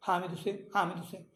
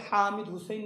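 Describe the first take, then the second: First: Said in the usual way. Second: "حامد حسین" with a strong h from mid-throat; Arabic throat ha. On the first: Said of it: "چھوٹا جو ہا". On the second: Shown as a demonstration. Teacher shows what nobody says, throaty h. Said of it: "وسط حلق سے نکلتا".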